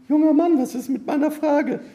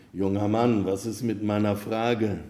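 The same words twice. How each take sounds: First: Very high falsetto woman's voice; loud-starting, high-pitched damsel's call; young woman calling. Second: Said in the usual way. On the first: A narrator's reading. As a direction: call after him in a high put-on female voice. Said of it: "rief sie". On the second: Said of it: "aber der rief ihn".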